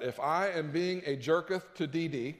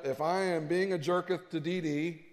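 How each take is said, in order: First: Mock King James English. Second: Put-on joking old scripture English, lightly; mock King James English. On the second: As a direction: sound spiritual with an old-fashioned "jerketh". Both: Shown as a demonstration. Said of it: "I King Jamesed it to make me sound more spiritual".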